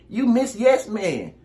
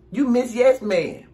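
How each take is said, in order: Both takes have the same delivery.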